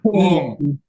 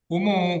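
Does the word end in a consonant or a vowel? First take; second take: consonant; vowel. First: The word ends on a bare consonant. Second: The word ends with an added vowel. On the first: This is the original form before another unvowelled letter. "humu itu aslinya apa itu?" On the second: A vowel is added because two unvowelled letters meet. "Kenapa diberi harkat menjadi humu?"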